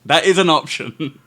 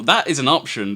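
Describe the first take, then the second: First: That IS an option, with the word is leaned on louder; game master lands hard on is, teasing; stress on IS. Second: THAT is an option, with the word that leaned on; game master points with that, falling at the end; stress on THAT. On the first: Game master teasing the player, stress on is. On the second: Game master offering the player stealing, stress on that. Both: Shown as a demonstration.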